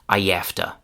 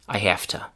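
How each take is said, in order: First: A y sound links I to afta. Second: It keeps the h, with an f sound. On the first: "we can add a little y sound between I and afta" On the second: "we take the voiced v sound and we change it to unvoiced f"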